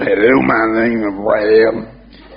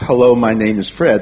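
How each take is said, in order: First: It is said in a Louisiana local accent. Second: It is said in the speaker's plain accent.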